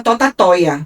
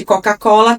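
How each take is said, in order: First: "Totatoia" with T sounds replacing the C sounds; imitated phonological slip on "Totatoia", L softened to a glide; child's mispronunciation. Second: Said in the usual way. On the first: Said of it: "ela trocava a maioria pelo T". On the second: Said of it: "ao invés de Coca-Cola".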